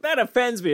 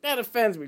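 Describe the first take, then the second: First: High, whiny "That offends me."; mock offended whiner. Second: High, whiny "That offends me."; a high whine as a touchy person; mock offended whiner. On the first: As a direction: echo the touchy person in a high whine. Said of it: "They're like".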